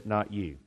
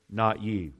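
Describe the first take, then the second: First: Not you, with not hit hard and falling; stress on not. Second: Not you, not punched with a firm falling end; stress on not. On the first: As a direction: land on not and drop the pitch on you. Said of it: "He sets the agenda". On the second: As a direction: drive not home, then fall. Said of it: "He's the sovereign Lord". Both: Acted.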